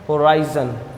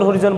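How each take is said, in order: First: The middle vowel sounds like 'eye'. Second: The middle vowel sounds like a short 'i'. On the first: The speaker calls it right. "सही उच्चारण होता है होराइजन" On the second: The speaker calls it wrong. "बहुत सारे लोग इसको होरिजन होरिजन बोलते हैं, तो ये होरिजन नहीं है"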